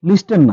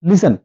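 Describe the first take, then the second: First: The t sound is clearly pronounced. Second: The t sound is left silent. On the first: The speaker calls it wrong. "লিস্টেন না" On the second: The speaker calls it right.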